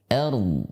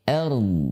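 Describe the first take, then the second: The two takes are said the same way.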